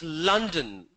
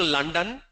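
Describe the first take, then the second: First: London slowly, crisp L, falling; London with a reduced second vowel. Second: London with a full second vowel, "lun-dan"; London with the L and ending left loose; wrong London. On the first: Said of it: "It's a very crisp sound". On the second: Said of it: "It's not I'm going to London". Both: Shown as a demonstration.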